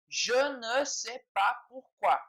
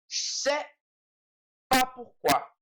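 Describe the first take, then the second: First: Every word is said, including ne. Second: The ne is dropped and je blends into sais. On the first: This is the formal or written form. "se for de maneira bastante formal, ou principalmente na escrita" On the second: This is how it is said in casual speech. "o ne a gente não fala, e esse é a gente junta"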